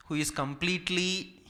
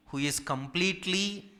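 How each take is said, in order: Both takes have the same delivery.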